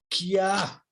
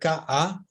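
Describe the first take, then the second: First: The k sound is followed by a y-glide. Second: The k sound is plain, without a y-glide. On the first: "sino kia" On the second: "No decía ka"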